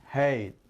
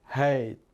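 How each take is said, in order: Both takes have the same delivery.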